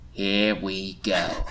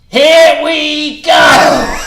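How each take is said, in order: First: It is said quietly, without shouting. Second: It is shouted loudly.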